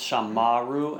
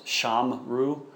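First: A full middle vowel is added, giving three syllables. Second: The middle vowel is dropped, giving two syllables. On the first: The word falls at a pause in the verse. "Here it's shamaru, ... the vowel has lengthened" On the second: This is the ordinary form of the verb. "Remember the strong verb is shamru"

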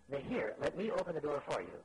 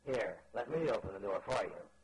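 First: It is said in a plain, friendly tone. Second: It is said in a pitying, condescending tone. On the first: The offer is a simple courtesy. The speaker calls it right. "this tone of voice, fine, great" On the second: The listener is seen as unable to do it. The speaker calls it wrong. "his tone of voice said to me"

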